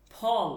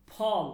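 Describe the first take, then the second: First: ফল with a strong puff of air on ফ; aspirated ফ. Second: ফল again with a pushed breath on ফ; aspirated ফ. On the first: Teacher showing the student a forceful ফ in ফল. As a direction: push the ফ out hard in ফল. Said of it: "এই উচ্চারণটা একটু ধাক্কা দিয়ে বলবেন". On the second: Teacher repeating ফল so the student hears the push. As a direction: give ফল a hard breathy ফ. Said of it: "ধাক্কা দিয়ে বলবেন". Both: Shown as a demonstration.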